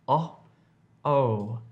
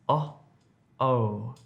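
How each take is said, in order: No difference in how they are said.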